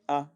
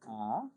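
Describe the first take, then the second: First: The vowel is clipped short. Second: The vowel is drawn out long. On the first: "you just say it quicker" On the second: "instead of saying ah"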